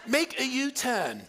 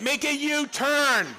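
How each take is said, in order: First: It is said at a normal, calm volume. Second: It is said loudly and angrily.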